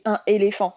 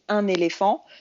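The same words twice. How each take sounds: First: The n is not carried into the following vowel. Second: The n links smoothly into the following vowel. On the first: The speaker calls it wrong. "c'est bizarre si on dit un éléphant" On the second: The speaker calls it right. "quand on fait la liaison"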